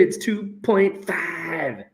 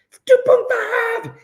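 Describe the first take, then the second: First: Slow, soft statement of the result; quiet announcement. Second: Very high, playful squeal; squealed repeat. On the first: Real, not acted. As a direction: say the figure slowly and softly. First, low take of the answer. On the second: Pretend. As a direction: squeak the figure out in mock excitement. Repeats answer in mock excitement.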